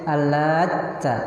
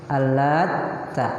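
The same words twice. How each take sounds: No difference in how they are said.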